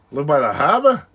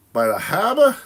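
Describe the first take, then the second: First: Put-on Rhode Island accent. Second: Put-on Rhode Island accent pushed higher and louder, harbor as hahbah. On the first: Teasing a Rhode Island viewer, mock Rhode Island accent. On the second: Teasing the viewer again, louder hammed-up Rhode Island accent. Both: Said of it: "I was talking like that one day".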